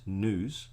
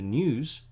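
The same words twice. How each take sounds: First: News without the glide, NOOZ; American U sound. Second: News with a y-glide, NYOOZ; non-American U sound. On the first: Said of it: "becomes news". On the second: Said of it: "the news becomes news". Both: Shown as a demonstration.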